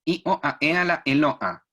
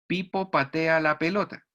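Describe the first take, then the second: First: I, o, a, e sin consonantes, con golpes glóticos; golpe de glotis. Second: Said in the usual way. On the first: Shown as a demonstration. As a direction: cambia cada consonante por un golpe de garganta. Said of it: "va a decir". (frase con golpes glóticos en vez de consonantes) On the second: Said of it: "por ejemplo, en una frase".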